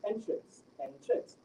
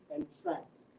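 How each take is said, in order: First: "entrance" stressed on its first syllable, EN-trance. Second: "entrance" stressed on its second syllable, en-TRANCE. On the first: Student demonstrates the noun to examiner, "entrance" stressed on EN. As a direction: hit the EN of "entrance", lighter second syllable. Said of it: "prioritized on the first". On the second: Student demonstrates the verb to examiner, "entrance" stressed on TRANCE. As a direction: land on the TRANCE of "entrance", drawn out. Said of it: "stressed on the second syllable". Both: Shown as a demonstration.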